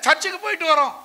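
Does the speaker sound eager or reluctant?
eager. It is said in a willing, positive tone. The speaker is glad to go to church. The speaker calls it right.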